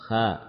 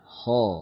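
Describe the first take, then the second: First: The consonant is light, without heavy backing. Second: The consonant is heavy, with a deep backed vowel. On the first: The speaker calls it wrong. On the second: The speaker calls it right.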